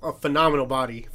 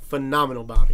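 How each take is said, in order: First: Said in the usual way. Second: Phenomenal body repeated louder, pressing on body; emphatic repeat. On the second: Retold or imitated. Praising Lake Bell to a friend, louder emphatic repeat. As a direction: hit it again, louder, for emphasis.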